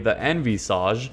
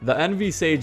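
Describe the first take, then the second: First: The name is said in a fancier way. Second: The name is said plainly as two words.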